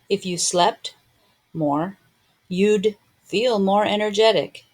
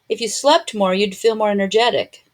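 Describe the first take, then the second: First: It is spoken slowly with every sound clear. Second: It is spoken faster with the D nearly dropped.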